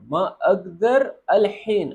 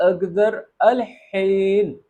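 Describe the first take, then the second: First: Said in the usual way. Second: الحین with a strong breathy ح, drawn out slowly; breathy Arabic ح. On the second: Shown as a demonstration. Teacher shows students the ح in الحین, slow and breathy. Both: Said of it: "ہا کی آواز نکالیں گے".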